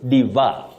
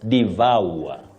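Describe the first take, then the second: First: The second syllable has a simpler vowel, no glide. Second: The second syllable glides through three vowel sounds. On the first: The speaker calls it wrong. "Some even say devour" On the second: The speaker calls it right. "the correct pronunciation of that word is devour. Vowel. ... It has what we call a triphthong"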